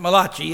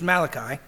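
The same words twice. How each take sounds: First: The name is said with an Italian-sounding pronunciation. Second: The name is said with a plain English pronunciation. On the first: The speaker calls it wrong. "It is not an Italian book of the Old Testament" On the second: The speaker calls it right. "It's Malachi"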